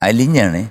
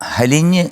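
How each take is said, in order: First: The word starts directly with a vowel. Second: The word starts with an h sound. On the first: The speaker calls it right. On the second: The speaker calls it wrong. "ഹലിഞ്ഞ് അല്ല"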